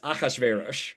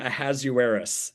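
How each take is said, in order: First: The name is said with its original pronunciation. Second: The name is said with an anglicized pronunciation. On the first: The speaker calls it right. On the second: The speaker calls it wrong. "there is no character name"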